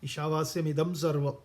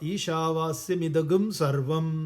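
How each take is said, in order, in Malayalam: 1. 'sarvam' ന് മുമ്പുള്ള വാക്ക് സാധാരണ 'm' ശബ്ദത്തിലാണ് അവസാനിക്കുന്നത്. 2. 'sarvam' ന് മുമ്പുള്ള വാക്ക് 'gum' ശബ്ദത്തിലാണ് അവസാനിക്കുന്നത്.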